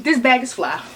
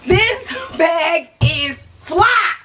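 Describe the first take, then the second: First: Said in the usual way. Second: "This bag is fly" stretched out slow and shouted; slow loud hype. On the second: Shown as a demonstration. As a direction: hype it up, draw out every word. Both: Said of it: "repeat for emphasis".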